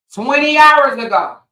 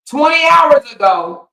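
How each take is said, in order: First: High, loud emphatic repeat. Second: Outraged shout. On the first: To the audience, repeating the hours, loud emphatic call. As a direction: punch it out again louder. Stressing the late post. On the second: To the audience, yelling about his late post, outraged shout. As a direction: shout it high and loud. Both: Acted.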